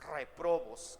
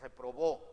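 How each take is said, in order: First: The stress is on the first syllable. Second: The stress is on the last syllable. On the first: The speaker calls it right. "con acento en la E" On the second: The speaker calls it wrong. "no es reprobó"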